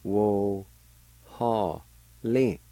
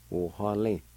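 First: Wo and ha held long with pauses, lin short; syllable by syllable. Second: Said in the usual way. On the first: Shown as a demonstration. Teacher showing how "eagle" is pronounced, syllable by syllable. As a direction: sound out Wo, ha, lin one at a time. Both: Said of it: "is pronounced like this".

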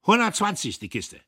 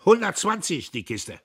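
First: Same high loud officer price, insisting; stubborn lieutenant; stubborn repeat. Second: High, loud, curt officer; loud high lieutenant voice; clipped officer voice. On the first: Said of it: "blieb dabei". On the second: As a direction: bark it like a brash lieutenant. Lieutenant repeats price. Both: A narrator's reading.

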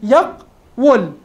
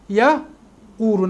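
First: "يقول" broken slowly into yaq, wul; very slow syllable-by-syllable "يقول" as yaq-wul; underlying form. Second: "يقول" split slowly as ya... quulu; long u after the qaf in "يقول", low and slow; vowel moved to qaf. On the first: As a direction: stop on the qaf in "يقول", then sound wul. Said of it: "واو مضمومة قبلها قاف ساكنة". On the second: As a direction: demonstrate "يقول" as ya-QUU-lu, waw silent as a glide. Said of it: "نقلنا الضمة إلى القاف". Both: Shown as a demonstration.

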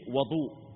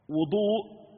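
First: "وضوء" with an "a" after the w, wadu; fatha on the waw. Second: "وضوء" with a "u" after the w, wudu, pitched higher; damma on the waw. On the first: Teacher reading the hadith to students, "وضوء" with fatha on waw. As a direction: open the first vowel of "وضوء" to wa-. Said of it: "بفتح الواو". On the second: Teacher naming the act of ablution, "وضوء" with damma on waw. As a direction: round the first vowel of "وضوء" to wu-. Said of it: "هو الفعل نفسه بضم الواو". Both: Shown as a demonstration.

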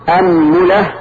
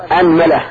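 First: أنملة said "anmula", u on meem; damma on meem. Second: أنملة said "anmala", a on both; fatha on hamza, meem. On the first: Teacher listing meem vowels, أنملة as "anmula". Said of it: "وضمها". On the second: Teacher showing the first dialect form, أنملة as "anmala". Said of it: "نبدأ بفتح الهمزة وفتح الميم". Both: Shown as a demonstration.

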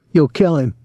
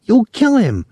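First: Lightly mocking, slightly high girl voice; imitating the girl. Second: Put-on high, alarmed girl's cry; shrill call. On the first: Tom chuckling after the fight, mild girl imitation. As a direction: mimic her cry, toned down. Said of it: "trying to imitate the girl's voice". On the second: Girl pleading with soldier to hold back, shrill. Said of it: "the girl called shrilly". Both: A narrator's reading.

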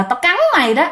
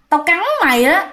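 First: Higher eerie threat, cắn stressed; ghost threat. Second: Higher eerie threat to bite; ghost threat. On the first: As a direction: sneer it like a ghost. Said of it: "cái kiểu bú láo là". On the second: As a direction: menace her like a hungry ghost. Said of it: "cái bà này mới nói". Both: Retold or imitated.

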